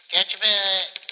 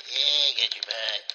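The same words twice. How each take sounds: First: High, loud cooing. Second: Said in the usual way. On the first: Real, not acted. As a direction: squeal it at the cat. Baby talk to her cat.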